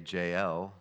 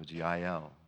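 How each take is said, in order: First: The name begins with a J sound. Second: The name begins with a Y sound. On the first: This is the usual English pronunciation. "we would say" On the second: This follows the original Hebrew pronunciation. "there's not a J sound in the Hebrew"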